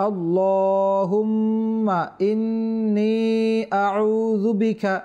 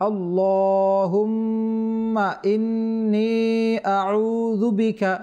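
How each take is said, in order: The two takes are said the same way.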